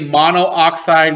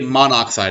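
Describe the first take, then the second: First: The two o sounds are said separately. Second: The two o sounds are rolled together. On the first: The speaker calls it wrong. "We don't say monoxide" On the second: The speaker calls it right. "we say monoxide. We kind of roll it all together"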